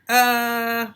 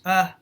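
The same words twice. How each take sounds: First: The filler is drawn out and hesitant. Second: The filler is short and clipped. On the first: The speaker is hesitating. The speaker calls it wrong. "he doesn't do that" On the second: The speaker keeps going with certainty. The speaker calls it right. "It isn't long"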